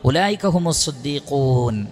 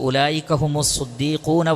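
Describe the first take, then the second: First: The phrase stops fully after the last word. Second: The last word runs on into the next. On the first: The sentence ends and the martyrs are a separate group. The speaker calls it right. "അവിടെ ആ സെൻറ്റൻസ് കഴിഞ്ഞു" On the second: The believers are both the truthful and the martyrs. The speaker calls it wrong. "അങ്ങനെയല്ല"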